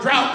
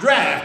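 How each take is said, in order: First: The vowel sounds like the one in 'out'. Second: The vowel sounds like the one in 'daft'. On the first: The speaker calls it wrong. "or drought, however you want to pronounce it" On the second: The speaker calls it right. "that's the way it's supposed to be pronounced, draft"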